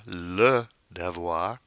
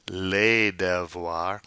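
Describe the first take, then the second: First: "le devoir" with le as luh; slow, separated "le devoir"; singular article. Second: "les devoirs" with les as lay; slow "les devoirs", silent final s; plural article. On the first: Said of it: "changes from the singular form". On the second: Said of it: "the definite article changes". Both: Shown as a demonstration.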